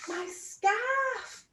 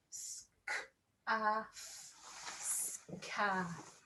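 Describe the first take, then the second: First: Said in the usual way. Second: "Scarf" stretched into sounds, soft; sounding out. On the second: Shown as a demonstration. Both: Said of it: "Let's sound out scarf".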